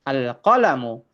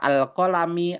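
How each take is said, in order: First: The word ends in a u vowel. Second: The word ends in an i vowel. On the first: The speaker calls it right. "harus dibaca dhammah" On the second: The speaker calls it wrong. "nggak bisa teman-teman baca al-qalami"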